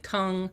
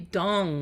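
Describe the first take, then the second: First: The name is said as tongue. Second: The name is said as dong. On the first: The speaker calls it wrong. "or they say tongue" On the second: The speaker calls it right. "but it's really dong"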